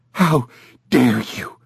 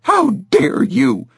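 First: Said in the usual way. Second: How dare you pitched high and slow; outraged. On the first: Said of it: "she said". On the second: A narrator's reading. Mother repeats her outrage.

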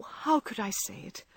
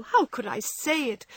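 First: Softer, broken repeat; tearful murmur. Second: Higher anguished question; tearful cry. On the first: Meg repeating her remorse to John, quieter and broken. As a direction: let it sink into a tearful murmur. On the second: Meg reproaching herself to John, anguished and tearful. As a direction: cry it out in remorse. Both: A narrator's reading. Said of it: "crying with repentant tears".

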